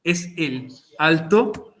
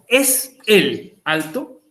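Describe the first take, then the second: First: Slow question with a rise on alto; slow translation. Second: Very slow, rising question; slow translation. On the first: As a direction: lay it out slowly again. (pregunta lenta subiendo en alto) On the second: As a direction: drag it out for the students. (traducción muy lenta) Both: Shown as a demonstration.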